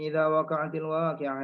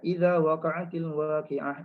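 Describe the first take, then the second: First: It is recited quickly, with little pause. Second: It is recited at a moderate speed. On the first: "Kemudian dia laju lagi" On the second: "dia baca kelajuan yang sederhana"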